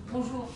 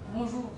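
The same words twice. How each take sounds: First: The greeting is said with a low, flat pitch. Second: The same.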